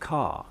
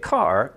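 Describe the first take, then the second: First: It has a British sound with the tongue down. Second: It has a Canadian R with the tongue up.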